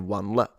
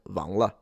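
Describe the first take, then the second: First: The word begins with a w sound. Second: The word begins with a v sound. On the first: "like I would say 晚了" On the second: "It's a v. The W is a v"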